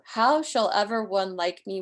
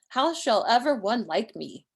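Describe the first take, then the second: First: The voice runs on past 'me' without stopping. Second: The phrase ends after 'me' as a complete question. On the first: How could someone like me win you back? "you're not supposed to stop at the end because there's no punctuation here" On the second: Nobody could ever love someone like me. "You'd put the question mark here and it'd mean something else"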